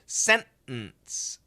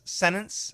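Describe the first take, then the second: First: The middle T is a stopped sound. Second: The middle T is left out entirely. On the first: "a lot of people will do a stop sound" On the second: "If we say it fast, some people will say sentence, no T"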